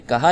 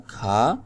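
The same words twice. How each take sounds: First: کہا said ka-ha, h voiced between the a sounds; کہا pronounced ka-ha; kaha with spoken h. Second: کھا said as one syllable kha, aspirated k. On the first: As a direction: say کہا in two syllables with a clear h. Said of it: "یہ والی ہا پڑھی جا رہی ہے". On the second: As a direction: say کھا with breath on the k, no separate h. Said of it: "یہ والی ہا پڑھی نہیں جا رہی". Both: Shown as a demonstration.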